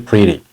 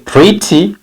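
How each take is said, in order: First: The middle consonant is a soft r-like flap. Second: The middle consonant is a clear t sound. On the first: "but T becomes re and you say pretty" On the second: "Say pretty"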